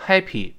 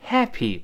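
First: Happy with a flat, narrow a; wrong happy. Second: Happy with a wide-open mouth a. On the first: Teacher showing the wrong a in happy. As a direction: say happy the wrong way, mouth barely open. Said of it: "不要读happy". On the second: Teacher showing the open a in happy. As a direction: spread the lips wide for the a in happy. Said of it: "咧开嘴发哎". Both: Shown as a demonstration.

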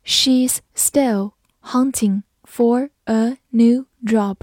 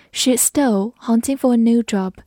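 First: Very slow, word-by-word model reading; slow read-through. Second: Said in the usual way. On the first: Shown as a demonstration. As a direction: read slowly, pausing between words. (放慢速度，一词一顿地读) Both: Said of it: "慢读一遍".

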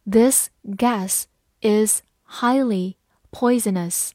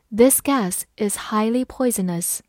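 First: Slow, word by word; slow and clear, each word apart; slow reading. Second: Said in the usual way. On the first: Shown as a demonstration. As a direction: read it slowly for learners. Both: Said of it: "好，慢慢来读。".

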